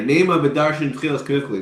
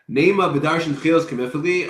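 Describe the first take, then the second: First: It is read as a plain statement. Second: It is read as a question.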